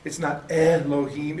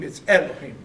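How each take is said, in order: First: Elohim said slowly with hard final him; wrong Elohim. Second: Elohim with a throaty chim ending; right Elohim. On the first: Teacher shows students the old Elohim with a hard him. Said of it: "the word Elohim, it's not". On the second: Teacher gives students the right Elohim with a throaty chim. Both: Shown as a demonstration.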